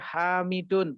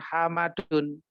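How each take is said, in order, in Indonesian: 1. Vokal kedua adalah bunyi 'i'. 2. Vokal kedua adalah bunyi 'a'. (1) "tulisan seperti ini bacanya Hamidun" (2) "bukan Hamadun"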